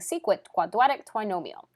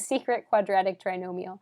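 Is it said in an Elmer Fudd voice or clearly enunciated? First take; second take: Elmer Fudd; clearly enunciated. First: It is said in an Elmer Fudd voice. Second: It is said clearly in a normal voice.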